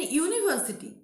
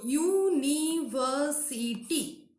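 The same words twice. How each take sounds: First: Said in the usual way. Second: University very slowly, u-ni-ver-si-ty; syllable by syllable. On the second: Shown as a demonstration. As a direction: count out "university" in five slow beats. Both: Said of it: "Five syllable".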